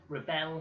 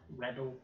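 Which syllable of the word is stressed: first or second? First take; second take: second; first. First: The stress is on the second syllable. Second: The stress is on the first syllable. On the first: It is used as a verb. "is a verb" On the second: It is used as a noun. "is a noun"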